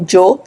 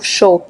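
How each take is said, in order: First: It is said without the Argentine 'sh' sound. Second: It is said with a Rosario Argentine 'sh' sound.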